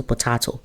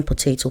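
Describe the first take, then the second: First: "potato" said puh-TAH-to; broad-A pronunciation. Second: "potato" said po-TAY-to; long-A pronunciation. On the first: Showing two words are the same, "potato" as puh-TAH-to. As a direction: say "potato" with an AH in the middle. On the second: Showing two words are the same, "potato" as po-TAY-to. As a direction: say "potato" with an AY in the middle. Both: Shown as a demonstration.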